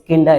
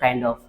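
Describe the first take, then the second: First: The words are contracted and blended together. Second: Every word is said fully and separately. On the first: "use kinda" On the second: "instead of kind of"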